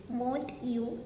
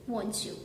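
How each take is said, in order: First: Said in the usual way. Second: "won't you" run together as wonchu; blended. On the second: Shown as a demonstration. Teacher to learners, "won't you" blended into wonchu. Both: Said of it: "two sounds blend in together".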